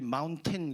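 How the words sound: It is said with a hard, fully pronounced t. "미국 사람들이 Mountain 그렇게 안 하고"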